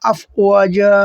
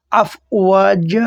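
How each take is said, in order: First: আফওয়াজা again with জা held one alif; repeat the pause form. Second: আফওয়াজা with the final জা drawn out one alif; long alif on ja. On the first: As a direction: say it once more, stretched. (আবার টেনে আফওয়াজা) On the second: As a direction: stretch জা at the pause. (আফওয়াজা শেষে এক আলিফ টান) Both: Shown as a demonstration. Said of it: "এইভাবে উচ্চারণ করবেন".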